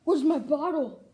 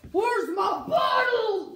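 First: Said in the usual way. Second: Shouted, higher and frantic; shouting. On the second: Acted. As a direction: yell it out in a panic. Asks again louder.

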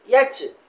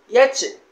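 Both takes have the same delivery.

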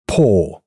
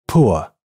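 First: Poor said like pour with long ɔː; poor on one pure long o. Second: Poor gliding from u to schwa; poor with the diphthong ʊə. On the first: (单元音ɔː读poor) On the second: (双元音ʊə读poor) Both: Shown as a demonstration. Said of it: "请比较下列每对单词的读音区别".

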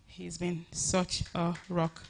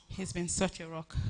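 First: "rock" drawn out, each word slow and weighed; slow heartfelt repeat. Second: Said in the usual way. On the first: Real, not acted. Thanking her husband Femi again, slow and heartfelt. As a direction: let it sink in, slowly, every word meant.

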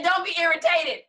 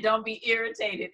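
First: Higher, louder, playful pleading; a hint of a whiny pleading Abraham; mock pleading Abraham. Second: Said in the usual way. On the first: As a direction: beg God not to be irritated, hamming it up. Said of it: "He said". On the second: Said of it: "he actually said".

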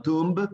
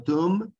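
First: TOMB wrongly ending in an audible B, "toomb"; tomb with B sounded. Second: TOMB said like "toom", ending on M; tomb with silent B. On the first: Teacher showing the mistake in the recap, TOMB with spoken B. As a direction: release a B at the end of TOMB. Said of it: "no tomb, sino tomb". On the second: Teacher correcting in the quick recap, TOMB without the B. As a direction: close TOMB on M, no B. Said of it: "sino tomb". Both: Shown as a demonstration.

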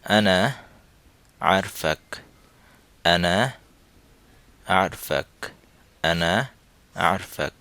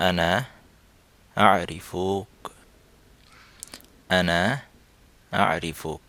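First: আনা আরফাক said the Saudi way, short আরফাক with no vowel after র; Saudi pronunciation. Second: আরিফুক said in full standard Arabic with ই and উ; the standard form আরিফুক, each vowel clear; standard Arabic pronunciation. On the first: Teacher drilling students in the Saudi form, Saudi pronunciation. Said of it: "এটি হচ্ছে Saudi উচ্চারণে". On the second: Teacher showing students the standard Arabic form, standard pronunciation. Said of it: "standard আরবিকে বলি তাহলে হবে". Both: Shown as a demonstration.

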